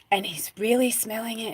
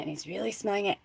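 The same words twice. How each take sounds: First: Said in the usual way. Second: And he's really smelling it said much softer; hushed repeat. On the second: Real, not acted. Telling a friend how he smelled the oil, the repeat hushed and soft.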